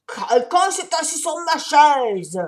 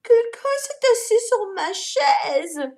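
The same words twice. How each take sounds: First: Louder, slow bear roar; papa bear yelling about his chair. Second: High, slow, louder mama bear; mama bear repeating, high and slow. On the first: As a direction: bellow it out. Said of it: "hurla Papa Ours". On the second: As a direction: echo it in a shocked mother's voice. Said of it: "répétait Maman Ours". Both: A narrator's reading.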